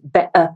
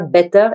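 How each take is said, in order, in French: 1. Le t du milieu est avalé. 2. Le t du milieu est clairement prononcé. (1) "ils avalent les mots" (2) "ils ne disent pas better"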